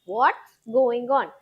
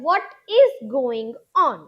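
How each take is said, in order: First: What and is merge into one syllable. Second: What and is are said as separate words. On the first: "व्हाट और इज का combination होगा व्हाट्स" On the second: "आप ऐसे भी बोल सकते हैं"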